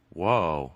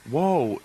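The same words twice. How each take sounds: First: Low, falling whoa; imitating her. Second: Lightly voiced startled backpedal; a hint of him, near your own pitch; imitating him. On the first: Host voices the mom reacting to the coach's line, low imitation. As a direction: drop the pitch right down as her. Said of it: "then she was like". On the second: Host voices the coach responding to the mom, light imitation. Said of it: "he was like".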